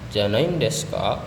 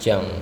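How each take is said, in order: First: The phrase is said in its full form. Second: The phrase is contracted to one short syllable. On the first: "kalimat awalnya adalah janai janain deska" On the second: "atau bisa disebut dengan jang"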